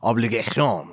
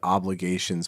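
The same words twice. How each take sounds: First: It is said in a French accent. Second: It is said in a plain English accent.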